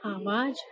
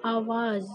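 First: आवाज़ said "aavaaj", ending in j; wrong j ending. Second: आवाज़ said "aavaaz", ending in z; correct z ending. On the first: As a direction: end आवाज़ on j instead of z. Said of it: "गलत". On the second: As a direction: close आवाज़ on a buzzing z. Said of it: "सही उच्चारण इसका होगा". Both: Shown as a demonstration.

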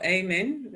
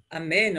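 First: Amen opening on an ay sound; Amen with a long A to start; second English variant. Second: Amen opening on an ah sound; Amen with an open first vowel; first English variant. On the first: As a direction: say Amen as AY-men. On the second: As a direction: say Amen as ah-MEN. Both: Shown as a demonstration. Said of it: "I think you pronounce it as".

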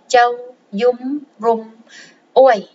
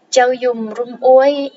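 First: Slow "Châu, dung, rum, uối" with a break before "uối"; word by word. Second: Said in the usual way. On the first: Shown as a demonstration. Teacher breaking down a Khmer phrase for learners, slowly word by word.

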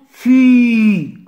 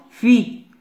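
First: "fi" with the "i" held long; long vowel. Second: Said in the usual way. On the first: Shown as a demonstration. Teacher drilling F sounds for pupils, drawn-out vowel. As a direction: stretch "fi" out loudly on one sustained vowel.

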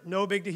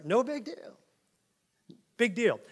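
First: Said in the usual way. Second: High, sneering little voice, ending on a rise; mocking. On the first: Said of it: "He's talking about false teachers here". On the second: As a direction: brush it off with a mock shrug. Mocking the false teachers' claim.

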